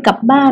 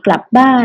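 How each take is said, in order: First: "กลับบ้าน" with the ล dropped, as "กับบ้าน"; casual Thai "กลับบ้าน" without the L sound; dropped consonant cluster. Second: Said in the usual way. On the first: Shown as a demonstration. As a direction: say "กลับ" as "กับ", no L after the K. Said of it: "เราอาจจะพูด". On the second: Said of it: "คำควบกล้ำในภาษาไทย".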